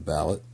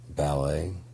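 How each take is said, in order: First: The word ends with a t, like ballot. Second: The word ends without a t sound.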